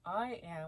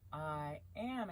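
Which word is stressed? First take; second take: I; am. First: The stress is on "I". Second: The stress is on "am".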